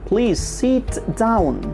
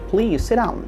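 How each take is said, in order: First: The t in sit is pronounced. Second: The t in sit is dropped. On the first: The speaker calls it wrong. "আমরা নিশ্চয় কখনো বলি না" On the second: The speaker calls it right. "আমাদেরকে বলতে হবে ... আমি থটাকে বাদ দিয়ে দিয়েছি"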